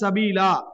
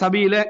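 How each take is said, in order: First: The final vowel is long, with a stop after. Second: The final vowel is short, running on without a stop. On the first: The reciter stops at this word. "நிறுத்தினா" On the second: The reciter joins it to the next word. "சேர்த்தோம்னா"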